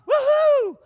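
It is said with loud excitement.

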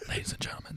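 It is said in a soft whisper. "what if we whispered the whole podcast?"

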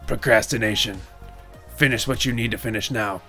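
It is said in a put-on spooky voice. "hit our sponsor again in that voice"

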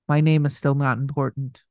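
It is read in a put-on character voice.

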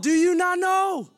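It sounds firm, sharp and rebuking. It rebukes someone to stop going back to sin. "Or you could say it like Paul"

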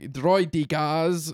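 It is said in Nute Gunray's put-on accent.

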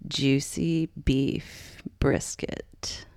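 It is said in a creaky voice.

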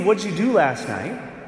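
It sounds curious and friendly. The asker simply wants to know.

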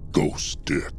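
It is said in a changed, put-on voice.

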